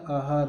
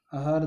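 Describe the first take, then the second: First: आहार with long opening "aa"; correct pronunciation. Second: आहार said with short first vowel, a-haar; wrong form pronounced. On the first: Teacher giving the right spelling, correct form sounded out. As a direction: say आहार as aa-haar. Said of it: "आहार होता है". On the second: Teacher rejecting a misspelling, wrong form sounded out. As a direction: clip the opening vowel of आहार to "a". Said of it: "आहार नहीं होता". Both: Shown as a demonstration.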